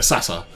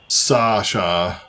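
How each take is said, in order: First: The middle consonant is a plain 's' sound. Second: The middle consonant is a 'sh' sound. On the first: The speaker calls it right. "it's Sa, uh, Sa, Sasa. Yeah" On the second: The speaker calls it wrong. "It's not Sasha"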